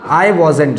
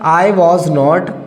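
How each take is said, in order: First: The words 'was not' are contracted into one. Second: The words 'was not' are said fully, separately. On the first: "short में पढ़ सकते" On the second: "negative हो जाएगा हमारा"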